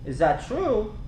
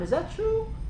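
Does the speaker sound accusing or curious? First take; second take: accusing; curious. First: The question sounds accusing and unfriendly. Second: The question sounds open and curious. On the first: The speaker is passing judgment. The speaker calls it wrong. "How likely that's going to work out, right?" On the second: The speaker genuinely wants to know. The speaker calls it right. "you want to come from a place you're being curious"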